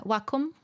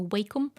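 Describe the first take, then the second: First: Wacom said as WAH-kum; Wacom with 'wah'. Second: Wacom said as WAY-kum; long 'ay' in the first half of Wacom; Wacom with 'way'. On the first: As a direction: open 'ah' in the first half of Wacom. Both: Shown as a demonstration. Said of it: "depending on how you say it".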